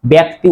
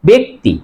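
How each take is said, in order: First: ব্যক্তি said "byakti"; wrong open vowel. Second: ব্যক্তি said "bekti"; e vowel in ব্যক্তি, as "bekti"; correct e sound. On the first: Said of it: "উচ্চারণ হবে না". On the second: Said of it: "উচ্চারণ হবে". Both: Shown as a demonstration.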